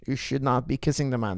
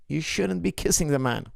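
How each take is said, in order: First: "not" spelled out and leaned on; emphatic should not. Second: Said in the usual way. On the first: Shown as a demonstration. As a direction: lean on "should not" so that "not" lands firm and separate.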